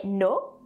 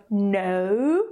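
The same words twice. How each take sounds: First: "no" with a short pure o; short French-accented "no"; French-accented short vowel. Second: "no" with a long gliding vowel; drawn-out English "no"; English diphthong. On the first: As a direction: cut the glide from "no", French-style. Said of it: "we say no". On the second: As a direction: glide from o to oo in "no". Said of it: "that's why instead of no". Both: Shown as a demonstration.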